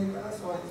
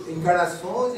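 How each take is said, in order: First: Encarnações trailed off almost to nothing, falling; fading echo. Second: Said in the usual way. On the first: Shown as a demonstration. Speaker lets encarnações fade to a near-silent fall. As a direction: let encarnações die away like an echo.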